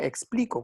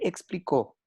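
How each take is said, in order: First: The stress falls on the middle syllable. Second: The stress falls on the last syllable. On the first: I explain it. The speaker calls it wrong. "si no sería explico, como yo explico" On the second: He explained it. The speaker calls it right. "el verbo debe llevar tilde"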